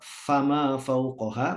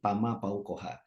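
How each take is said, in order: First: The first word begins with an f sound. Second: The first word begins with a p sound. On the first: The speaker calls it right. "harusnya tuh" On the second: The speaker calls it wrong.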